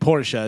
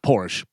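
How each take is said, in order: First: The word is said with two syllables. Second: The word is said with one syllable. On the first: The speaker calls it right. "It's two syllables" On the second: The speaker calls it wrong.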